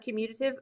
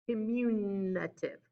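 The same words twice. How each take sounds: First: The middle sounds like the word commute. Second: The middle sounds like the word communicate. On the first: The speaker calls it right. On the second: The speaker calls it wrong.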